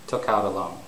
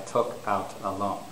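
First: The words run together with linking between them. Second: Each word is said separately, without linking. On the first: The speaker calls it right. "The normal way to say it is with linking" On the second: The speaker calls it wrong. "it's not normal to say"

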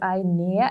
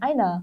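First: Each sound is said fully and carefully. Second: It is said quickly with a reduced ending. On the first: "발음을 강조해 주시려고 eine, 이렇게 하셨는데" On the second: "빨리 하다 보면 뭐, 아이나"

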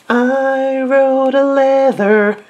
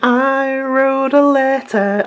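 First: The last word is said with a 'th' sound. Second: The last word is said with a 't' sound. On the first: The speaker calls it wrong. "she does say the word leather instead of letter" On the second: The speaker calls it right. "Instead of saying"

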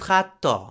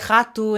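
First: The unstressed final vowel is fully pronounced. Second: The unstressed final vowel is reduced. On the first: "instead of" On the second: "the vowels shift when they're not stressed. It's why we say rato"

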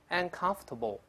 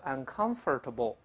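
First: The middle 'or' syllable is dropped. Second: The middle 'or' syllable is fully pronounced. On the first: The speaker calls it right. "中间这个or 不能发音" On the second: The speaker calls it wrong. "不要读uncomfortable，不是这么读的"

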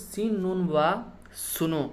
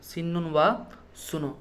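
The two takes are said the same way.

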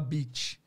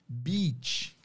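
First: The vowel is a short i sound. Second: The vowel is a long, stretched ee sound. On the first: The speaker calls it wrong. "a gente fala beach. O que pode soar um pouquinho como bitch" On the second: The speaker calls it right. "ao invés da gente falar"

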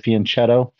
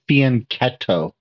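First: The middle consonant is a ch sound. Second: The middle consonant is a k sound. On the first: The speaker calls it wrong. "most people say fianchetto" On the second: The speaker calls it right. "They pronounce it with a k sound"

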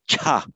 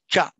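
First: The consonant has a puff of air. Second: The consonant has no puff of air. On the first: The speaker calls it right. "There's a puff of air coming after it" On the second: The speaker calls it wrong. "that's not a cha"

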